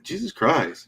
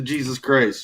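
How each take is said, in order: First: Higher-pitched demo of a character catchphrase. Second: Said in the usual way. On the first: Shown as a demonstration. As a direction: say it higher, showing how the voice starts. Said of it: "Just, just do that". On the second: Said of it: "do the Jesus Christ".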